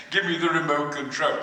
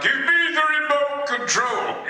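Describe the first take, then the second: First: Said in the usual way. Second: Higher, booming villain demand; grand villain line, higher and loud; hammed-up villain line. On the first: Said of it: "People still say". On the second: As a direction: bark it like a pompous movie villain. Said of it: "I was saying things like".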